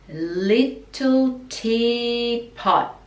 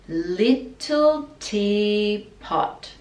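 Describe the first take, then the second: Both takes have the same delivery.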